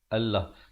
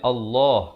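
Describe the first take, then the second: First: The L sound is light and thin. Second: The L sound is heavy and full. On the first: The speaker calls it wrong. "Allah itu jadi nipis" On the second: The speaker calls it right. "Sepatutnya Allah"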